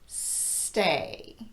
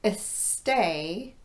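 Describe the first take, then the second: First: The word starts directly with a voiceless S. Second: A short vowel sound comes before the S. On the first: The speaker calls it right. "but stay" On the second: The speaker calls it wrong. "not a stay"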